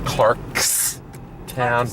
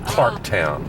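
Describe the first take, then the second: First: An s sound is heard after Clark. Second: No s sound is heard after Clark. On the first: This is the official form of the name. "it's really Clarkstown" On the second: This is how the locals say it. "when you don't say the S"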